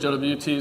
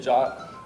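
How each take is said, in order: First: It is spelled out as three separate letters. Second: It is pronounced as one short word, jot. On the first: "Sometimes I'll say J W T" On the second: "the suggested pronunciation of this is J O T"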